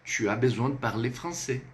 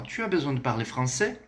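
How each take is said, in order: First: "Tu as besoin de parler français" without the question lift; statement tune through to "français"; affirmative intonation. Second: "Tu as besoin de parler français" going up at the end; rising intonation. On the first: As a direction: state it as a fact, settling on "français". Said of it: "dentro de um contexto afirmativo". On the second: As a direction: ask it, voice lifting on "français". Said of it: "Ela sobe". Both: Shown as a demonstration.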